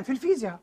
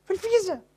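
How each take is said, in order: First: Said in the usual way. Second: In physics repeated much higher and softer; في الفيزياء lifted high as an aside; high echo. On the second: Shown as a demonstration. Echoing to students, في الفيزياء high and soft. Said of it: "لو تسأل أي عالم في الفيزياء".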